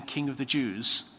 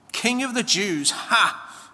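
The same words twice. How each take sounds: First: Said in the usual way. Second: Higher, restrained mock yell; taunting crowd, pitched up but not screamed. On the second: A narrator's reading. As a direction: jeer it with a scornful "ha!". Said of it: "they yelled".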